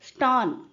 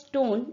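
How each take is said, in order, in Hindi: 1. स्वर 'law' के 'aw' जैसा सुनाई देता है। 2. स्वर एक साफ़ 'o' ध्वनि है। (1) "Instead of clear o sound, it was a mixture of a and o, like law" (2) "clear o sound"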